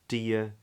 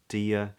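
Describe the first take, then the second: The two takes are said the same way.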